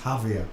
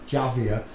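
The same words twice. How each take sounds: First: The first letter J is silent. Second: The first letter J is sounded.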